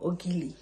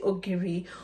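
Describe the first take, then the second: First: The middle consonant is an l sound. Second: The middle consonant is an r sound. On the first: "some people pronounce it as Ogili" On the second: "Some people pronounce it as Ogiri"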